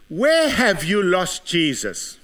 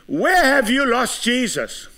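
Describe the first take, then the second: First: Said in the usual way. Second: Preached question. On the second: Acted. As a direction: throw the question at the crowd. Same question, now preached.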